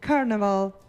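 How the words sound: The word is pronounced with English sounds. The speaker calls it wrong.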